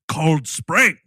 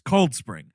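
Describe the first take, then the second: First: The stress falls on the second word. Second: The stress falls on the first word. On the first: The speaker calls it wrong. "Everyone in this movie is Cold Spring" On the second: The speaker calls it right. "The the accentuation is on the word cold, not the word spring. It's Cold Spring"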